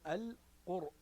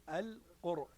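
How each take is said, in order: The two takes are said the same way.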